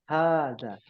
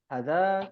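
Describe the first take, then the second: First: The first vowel is held long. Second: The first vowel is cut short. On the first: The speaker calls it right. "dia sebenarnya dibacanya panjang, dua harokat" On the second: The speaker calls it wrong.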